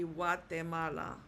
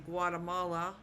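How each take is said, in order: First: Guatemala as wah-teh-MAH-lah; correct Spanish pronunciation. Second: Guatemala with hard g, GWAH-tuh-MAH-luh; anglicised mispronunciation. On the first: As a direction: say Guatemala with a w start and clear te. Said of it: "It would be". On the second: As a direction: demonstrate the English Guatemala to avoid. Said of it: "I wouldn't want anyone to say". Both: Shown as a demonstration.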